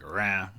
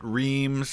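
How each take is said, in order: First: It has a nasal vowel and no final z. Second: It has an ee vowel and ends in z. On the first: This is closer to the French. "probably more close in French to like rin" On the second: This is how wartime soldiers said it. "a lot of soldiers pronounced it reams"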